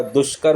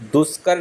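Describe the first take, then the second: First: दुष्कर as "dush-kar"; sh before k in दुष्कर; correct sh sound. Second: दुष्कर misspoken as "dus-kar"; plain s before k in दुष्कर; wrong plain s. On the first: Teacher correcting it, दुष्कर with "sh". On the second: Teacher showing the error, दुष्कर with "s". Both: Shown as a demonstration. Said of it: "आधा मूर्धन्य श आता है".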